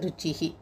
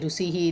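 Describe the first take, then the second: First: The middle consonant is doubled and held. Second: The middle consonant is short and single. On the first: The speaker calls it right. "இதுவும் ருச்சிஹி" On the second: The speaker calls it wrong. "இல்லை"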